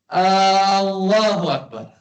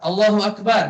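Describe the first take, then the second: First: The opening vowel is drawn out long. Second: The opening vowel is short. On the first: A question asking whether God is the greatest. The speaker calls it wrong. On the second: A statement that God is the greatest. The speaker calls it right.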